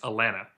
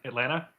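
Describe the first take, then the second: First: Neither T sound is pronounced at all. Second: Only the first T sound is pronounced. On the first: The speaker is an older local. "There's there's no T's" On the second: The speaker is a younger local. "Second T drops"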